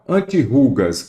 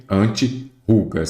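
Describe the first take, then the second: First: Said in the usual way. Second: "antirrugas" slowly parted after "anti"; split into parts. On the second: Shown as a demonstration. Teacher showing where prefix meets word, slow and divided. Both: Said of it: "vamos ver aqui".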